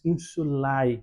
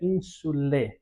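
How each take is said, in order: First: The ending sounds both a and e. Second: The ending is a single e sound. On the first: This is the reconstructed classical pronunciation. "na pronúncia reconstituída nós diríamos insulae, nós pronunciaríamos todos os sons" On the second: This is the church-style Latin pronunciation. "na pronúncia eclesiástica se dá como que eh, omitindo a sonoridade do A e falando somente o E"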